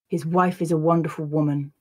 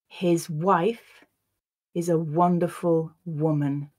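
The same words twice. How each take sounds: First: The sentence is read at normal conversational speed. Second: The sentence is read slowly and carefully. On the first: "then I'll read it once at a more natural pace" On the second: "I'll read the sentence once slowly"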